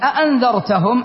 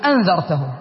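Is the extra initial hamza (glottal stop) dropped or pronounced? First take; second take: pronounced; dropped. First: Two glottal stops are heard at the word's start. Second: Only one glottal stop is heard at the word's start. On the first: It is marked as a question. "نحن في قراءتنا" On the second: It is still understood as a question. "في قراءة أخرى"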